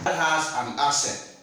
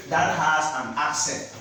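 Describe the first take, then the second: No difference in how they are said.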